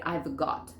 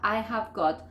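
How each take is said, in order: First: Lower, "I've" as one syllable; contracted "I've got"; contracted form. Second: "I have" as two words; uncontracted "I have got"; full form. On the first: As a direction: shrink "have" to a V in "I've got". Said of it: "simplificar y decir". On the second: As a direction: sound "have" fully before "got". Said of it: "vas a poder simplificar". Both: Shown as a demonstration.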